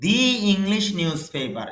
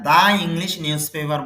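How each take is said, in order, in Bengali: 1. 'The' উচ্চারিত হয় 'thee' এর মতো। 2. 'The' উচ্চারিত হয় 'thuh' এর মতো। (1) "আর দি হবে ভি এর ক্ষেত্রে মানে ভাওয়েলের ক্ষেত্রে।" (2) "বলাটা ঠিক হবে না"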